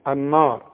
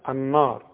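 The two takes are said the same way.

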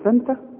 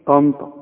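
First: The t sounds are plain and thin. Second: The t sounds are heavy and emphatic. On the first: The speaker calls it wrong. "تقول لي تنتا؟ مش ممكن" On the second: The speaker calls it right. "بتقولها في كلامك الدارج"

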